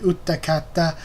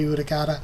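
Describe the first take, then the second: First: The name is said in a fuller, careful form. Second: The name is said in a shorter, clipped form. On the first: This is the proper pronunciation of the name. The speaker calls it right. "it should be Utakata" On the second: This is an easier, deliberately incorrect pronunciation. The speaker calls it wrong. "it's quicker to just say Utakata"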